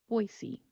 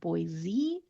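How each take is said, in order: First: The middle consonant is an S sound. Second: The middle consonant is a Z sound. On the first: The speaker calls it right. "We're going to keep it as an S sound" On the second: The speaker calls it wrong. "with a Z sound, like Boise"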